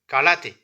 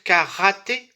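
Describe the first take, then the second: First: The middle consonant sounds between l and r. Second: The middle consonant is a French throaty r. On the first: The speaker calls it right. "Il n'y a pas de R en japonais. C'est entre le L et le R" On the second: The speaker calls it wrong. "on ne devrait pas dire karaté"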